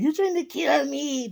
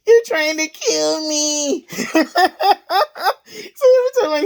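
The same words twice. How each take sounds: First: High, softer mock old-man voice; a light put-on of the old guy; imitating old coworker. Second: High-pitched, laughing coworker voice; laughing imitation. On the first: Repeating the coworker's line in a light high mock voice. Same coworker quote again. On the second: Retelling the older coworker's line, laughing high. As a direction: quote him while cracking up.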